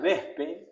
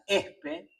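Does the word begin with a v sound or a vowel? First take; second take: v sound; vowel. First: The word begins with a v sound. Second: The word begins directly with a vowel. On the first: This is the standard pronunciation. "que se pronuncia vespe" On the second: The initial sound is dropped, leaving the initials S P. "el hombre de los lobos pronuncia espe"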